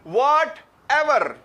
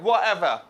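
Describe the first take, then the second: First: The t sound is clearly pronounced. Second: The t sound is dropped completely. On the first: "हमें आदत है सुनने की वट एवर" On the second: "इस तरह करके बोलते हैं वो एवर"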